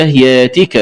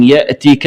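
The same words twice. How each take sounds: First: ياتك with long yaa, no glottal stop; hamza as alif. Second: Said in the usual way. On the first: Shown as a demonstration. Teacher showing the variant, ياتك without hamza. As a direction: glide "yaatika" for ياتك. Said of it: "بإبدال الهمزة ألفا مادية". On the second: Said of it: "بإبدال الهمزة ألفا".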